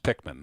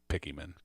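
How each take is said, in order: First: The name is said with two syllables. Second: The name is said with three syllables. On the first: The speaker calls it right. "It's Pikmin" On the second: The speaker calls it wrong. "not Pickyman"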